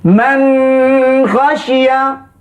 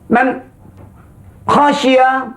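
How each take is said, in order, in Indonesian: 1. Huruf n ditahan dengan dengung sengau tambahan. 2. Ada henti di antara kedua kata. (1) "Ini dilebihkan dia dengung"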